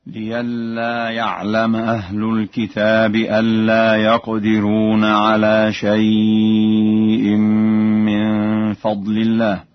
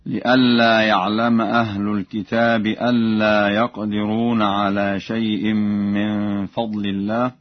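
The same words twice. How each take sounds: First: لئلا said as liyalla with a pure open ya; hamza as ya. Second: لئلا with a glottal hamza; recited verse. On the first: Teacher demonstrating Warsh's ya for hamza, slow chant. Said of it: "بإبدال الهمزة ياء ... هكذا". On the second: Teacher reciting the verse before the Warsh change. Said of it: "قوله تعالى". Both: Shown as a demonstration.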